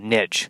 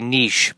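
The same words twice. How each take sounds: First: The word is given its plain, everyday pronunciation. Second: The word is given its upscale, fancy pronunciation. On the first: This is the version used by ordinary people. "it's just going to be uh, niche" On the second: This is the version used by wealthier people. "If I'm successful enough, I can start to say niche"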